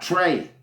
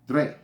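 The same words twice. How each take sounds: First: It is said like English 'tray'. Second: It is said with a French rolled R. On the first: The speaker calls it wrong. "not Trey" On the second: The speaker calls it right. "the number three is Trey"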